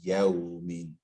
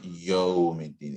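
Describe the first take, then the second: First: Yawmiddin with an open yaw glide; correct pronunciation. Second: Yawmiddin with a rounded yo at the start; incorrect pronunciation. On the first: Teacher showing the student the difference, open yaw in Yawmiddin. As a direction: say Yawmiddin slowly, ya gliding into w. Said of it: "it's Yawmiddin". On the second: Teacher showing the mistake to a student, yo-sounding Yawmiddin. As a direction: say Yawmiddin slowly as yo-middin. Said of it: "It's not Yawmiddin". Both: Shown as a demonstration.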